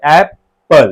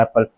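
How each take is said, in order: First: Apple split into two slow beats, एप-पल; syllable by syllable. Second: Said in the usual way. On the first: Shown as a demonstration. Teacher counting mouth openings, Apple broken into two beats. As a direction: pause inside Apple between its two syllables. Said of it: "दो बार open होता है हमारा मुंह". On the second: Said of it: "दो बार open होता है".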